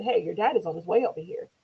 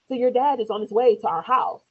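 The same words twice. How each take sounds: First: Said in the usual way. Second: "dad" pushed louder and higher; emphatic repeat. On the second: Retold or imitated. Telling son's father once more after his "Huh?", emphatic repeat. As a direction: spell out "So your dad is on his way" louder, pitched up.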